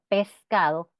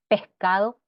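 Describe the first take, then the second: First: The s before the c is fully pronounced. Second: The s before the c is weakened.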